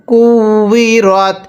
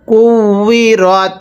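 No difference in how they are said.

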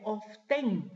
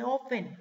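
First: "often" said as OF-TEN, with a clear T; T pronounced. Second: "often" said as OFF-en, without any T; silent T. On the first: Teacher showing class how often is written, "often" with sounded T. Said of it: "no se pronuncia la T". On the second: Teacher correcting class on often, "often" with silent T. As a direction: drop the T from "often". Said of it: "pero no se pronuncia la T, se dice". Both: Shown as a demonstration.

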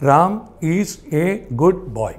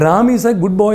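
First: Very slow, a pause after each word. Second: Said in the usual way. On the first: Shown as a demonstration. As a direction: separate "Ram", "is", "a", "good", "boy". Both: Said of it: "അഞ്ച് വാക്കുകൾ മതി".

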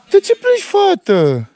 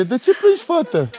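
First: Sing-song concern. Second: Gentle asking. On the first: Dad coaxes his crying daughter, high sing-song. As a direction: coax her with a high lilting voice. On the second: Dad gently asks his crying daughter why she cries. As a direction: ask her kindly why she's crying. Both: Real, not acted.

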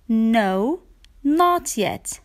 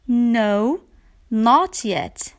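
No difference in how they are said.

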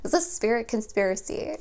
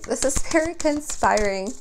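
First: Said in the usual way. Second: Conspiring said firmly, higher and louder; self-correction, conspiring stressed up and loud; corrected word. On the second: Shown as a demonstration. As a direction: land on conspiring as the right word.

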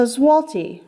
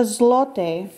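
First: "zloty" as "ZWAH-tee", with the l said like a w; Polish pronunciation. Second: "zloty" for one, ending in an "ay"-like sound; Polish pronunciation. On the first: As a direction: say "zloty" with a w sound and an "ee" ending. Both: Shown as a demonstration. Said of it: "a few pronunciation notes".

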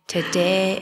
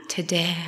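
First: "today" pushed out louder; "today" raised in a preacher's cry. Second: Hushed "today" before the call; whispered today. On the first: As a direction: call out "today" with force. Altar call, repeated louder. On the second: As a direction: breathe "today" as a hush. Altar call, repeated word. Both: Shown as a demonstration.

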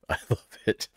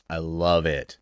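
First: Laughing. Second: Said in the usual way. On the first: Real, not acted. Repeats her delight, laughing.

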